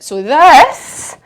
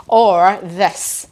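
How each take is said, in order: First: A loud showy "this"; big loud demo. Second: Said in the usual way. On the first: Shown as a demonstration. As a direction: show the big version loudly.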